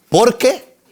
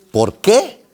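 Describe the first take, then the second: First: "Por qué" with POR punched high; contrasting stress demo. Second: "Por qué" with QUÉ stressed and rising; stress on final QUÉ. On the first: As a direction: hit POR in "Por qué", higher pitch. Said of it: "Hay que diferenciar entre por qué". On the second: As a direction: lift QUÉ at the end of "Por qué". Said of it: "Y acento al final es pregunta". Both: Shown as a demonstration.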